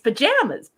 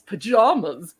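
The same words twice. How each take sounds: First: It is said the Canadian way. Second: It is said the American way. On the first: "in Canada, it's pajamas" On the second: "down in the United States, it's pajamas"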